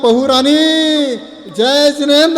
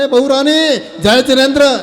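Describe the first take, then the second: First: It is said in a loving, gentle tone. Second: It is said in an angry, harsh tone.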